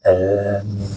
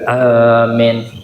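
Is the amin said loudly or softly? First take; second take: softly; loudly. First: The word is said softly and weakly. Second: The word is said loudly.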